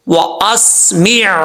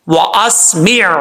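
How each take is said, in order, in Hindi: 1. शब्द के आख़िर में गले का व्यंजन साफ़ सुनाई देता है। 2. शब्द के आख़िर में गले का व्यंजन साफ़ सुनाई देता है।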